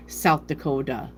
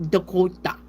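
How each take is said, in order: First: Said in the usual way. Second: "Dakota" with a rounder open O, as others say it; mocking southern say. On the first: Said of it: "That's the way I say my O's". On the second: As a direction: imitate how people say "Dakota", O rounded. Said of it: "people are like".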